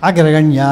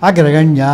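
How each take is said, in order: Both takes have the same delivery.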